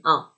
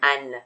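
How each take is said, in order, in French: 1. Le mot se termine par une voyelle nasale sans n. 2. Le mot se termine par un son n clairement prononcé. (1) "ما میگیم un. un نزله" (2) "نش نمیشه نمیگیم ان"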